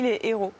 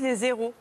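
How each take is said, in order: First: No z sound links les to héros. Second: A z sound links les to héros. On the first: The speaker calls it right. "Comme ça ne marche pas, on dit les héros" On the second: The speaker calls it wrong. "La règle voudrait qu'on dise les zéros"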